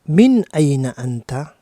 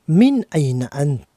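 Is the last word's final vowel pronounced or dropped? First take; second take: pronounced; dropped. First: The last word ends with a clear final vowel. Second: The last word ends without its final vowel. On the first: It addresses a man. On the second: It can address either a man or a woman.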